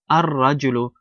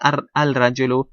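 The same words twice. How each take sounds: First: The l blends into a doubled r sound. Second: The l sound is clearly pronounced before r. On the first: The speaker calls it right. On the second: The speaker calls it wrong.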